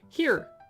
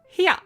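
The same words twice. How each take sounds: First: It is said with one syllable, American style. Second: It is said with two syllables, Australian style.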